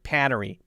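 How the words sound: The first vowel is a long nasal apple-like 'a'. "A long uh, nasally A sound, an eh like apple"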